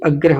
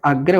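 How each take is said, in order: First: अग्रह with a short clipped अ at the start; wrong short vowel. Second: आग्रह with a long open आ at the start; correct long vowel. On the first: Teacher showing students the wrong form, short अ in अग्रह. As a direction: say अग्रह with a quick short first अ. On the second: Teacher showing students the right form, long आ in आग्रह. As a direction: say आग्रह stretching the first आ, clearly long. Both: Shown as a demonstration. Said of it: "ये अग्रह शब्द नहीं होता".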